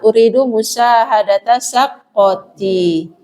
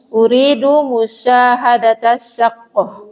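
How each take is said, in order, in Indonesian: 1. Kata terakhir berakhir dengan vokal akhir. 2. Kata terakhir berakhir tanpa vokal akhir. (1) "Kalau dikasih harokat" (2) "kalau mau dimatikan juga masih tidak apa-apa"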